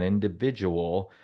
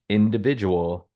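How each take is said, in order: First: Individual drawn out slowly with a rise at the end; emphasized word. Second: Said in the usual way. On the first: Shown as a demonstration. Stressing the key word for his co-host, slow and rising. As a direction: stretch out individual and lift it at the end. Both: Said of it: "I'm gonna emphasize that word again".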